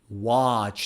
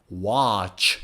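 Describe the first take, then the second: No difference in how they are said.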